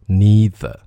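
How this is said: It is said in an American accent. "美音当中它会念成neither"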